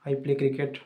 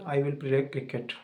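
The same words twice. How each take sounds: First: Said in the usual way. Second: The English sentence drawn out very slowly; slow, deliberate demo. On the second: Shown as a demonstration. Teacher showing students the future tense, very slow. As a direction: spell out I will play cricket word by word. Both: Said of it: "दो sentence बताता हूँ मैं English में".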